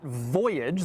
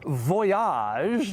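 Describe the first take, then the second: First: The word is said with an English pronunciation. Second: The word is said with a French pronunciation. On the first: The speaker calls it wrong. "not voyage" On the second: The speaker calls it right. "it is pronounced Voyage ... a little French flair"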